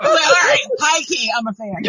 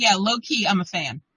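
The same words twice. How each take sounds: First: High, loud, laughing concession; emphatic admission. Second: Said in the usual way. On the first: Retold or imitated. Fan owns up to sister-in-law, laughingly emphatic. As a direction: blurt it out high, then settle down. Retold giving in, high key versus low.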